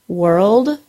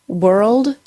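Both takes have the same delivery.

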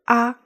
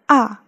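First: The pitch stays high and level. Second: The pitch falls sharply. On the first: Something is obvious. "啊 as first tone.Is usually used to express something that is obvious" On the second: The speaker is surprised. "The 啊 is the fourth tone to show that someone is surprised about something"

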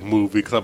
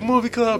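First: It is said in a grim, serious tone. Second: It is said in a bright, cheerful tone. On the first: The others' darker intro. "you guys were like" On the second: The speaker's own upbeat intro. "I was like, ... why am I so happy?"

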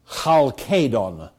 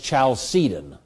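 First: The name begins with a hard K sound. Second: The name begins with a soft S sound. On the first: "which nobody says" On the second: "The K went into Latin as a soft C, and so it's Chalcedon"

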